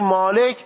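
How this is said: It is said with a Persian accent. "اما شما میگی مالک"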